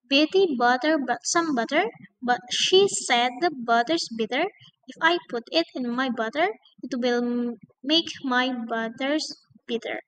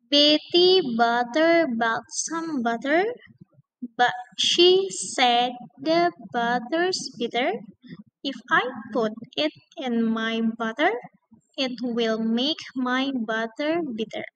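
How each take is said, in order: First: It is said fast. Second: It is said slowly.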